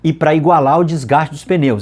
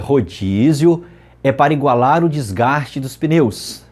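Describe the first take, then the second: First: It is said fast. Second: It is said slowly.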